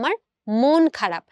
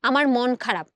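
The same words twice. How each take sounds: First: The vowel in 'mon' is a closed o. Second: The vowel in 'mon' is an open aw. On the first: The speaker calls it right. "আমরা বলি আমার মন খারাপ। তার মানে এই ময়ের উচ্চারণটা ময় ওকার হয়ে গেল।" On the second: The speaker calls it wrong. "বলি না"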